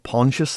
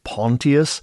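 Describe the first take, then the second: First: The name is said the usual English way. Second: The name is said the way Romans would. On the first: "the way we tend to" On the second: "I assume the Romans would pronounce it"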